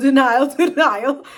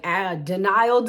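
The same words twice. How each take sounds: First: Loud laughing repeat of denial. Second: Said in the usual way. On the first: Real, not acted. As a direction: laugh it out, teasing herself. Mocking her own denial.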